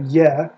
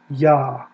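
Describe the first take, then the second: First: The syllable is said with an 'eh' vowel. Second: The syllable is said with an 'ah' vowel. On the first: The speaker calls it wrong. "It doesn't have Yeh" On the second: The speaker calls it right. "it's Yah"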